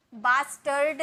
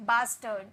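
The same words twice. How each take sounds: First: Bastard with the r pronounced before d; sounded r. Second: Bastard as "bas-tuhd", no r; silent r. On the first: Teacher shows learners what to avoid, sounded r. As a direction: stretch bastard out with an audible r. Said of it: "bastard नहीं". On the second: Teacher corrects the word for learners, r silent. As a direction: end bastard on "tuhd", leaving out the r. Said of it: "आर का sound नहीं निकालेंगे". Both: Shown as a demonstration.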